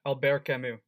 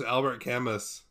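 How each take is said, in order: First: Albert Camus said the French way, silent T and S; French-style "Albert Camus", ending in an oo sound; French pronunciation. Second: Albert Camus read as English, AL-bert CAM-us; English-style "Albert Camus", rhyming Camus with famous; anglicized mispronunciation. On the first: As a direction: say "Albert Camus" as al-BEAR ka-MOO. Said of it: "Is that how you pronounce it?". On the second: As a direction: say "Albert Camus" with the T and final S sounded. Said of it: "I thought it was". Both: Shown as a demonstration.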